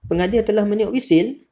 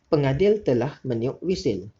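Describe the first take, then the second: First: It is said with a questioning rising tune. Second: It is said calmly with a falling statement tune. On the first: It asks whether something happened. The speaker calls it wrong. "Tu ayat tanya" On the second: It simply reports a fact. The speaker calls it right. "Tu cara nada yang betul"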